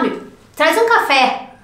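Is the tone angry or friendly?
angry. It is said in a harsh, angry tone. The speaker is being rude. The speaker calls it wrong. "se você falasse assim, ah, me traz um café, bravo"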